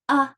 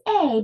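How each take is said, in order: First: It is said with the reduced vowel 'uh'. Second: It is said with the full vowel 'ay'. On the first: It is used as a word in a sentence. "often in a sentence we say uh" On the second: It names the letter. "It's A"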